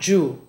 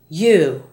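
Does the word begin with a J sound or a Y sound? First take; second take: J sound; Y sound. First: The word begins with a J sound. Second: The word begins with a Y sound. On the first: The speaker calls it wrong. "not ju" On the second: The speaker calls it right. "Other Y words are you"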